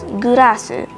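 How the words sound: It is three syllables with an R sound.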